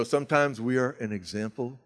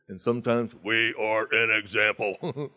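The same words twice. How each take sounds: First: Said in the usual way. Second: "an" drawn out slowly on a rising tune; punchline stress. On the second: Shown as a demonstration. Quoting a home group friend's saying, slow stressed punchline. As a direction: lean on "an" and slow the whole line down. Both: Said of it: "a guy in my home group says".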